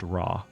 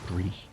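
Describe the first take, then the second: First: The name is said with an 'ah' vowel. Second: The name is said with an 'ay' vowel. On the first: The speaker calls it wrong. "as if it's pronounced Ra" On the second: The speaker calls it right. "it is in fact Re"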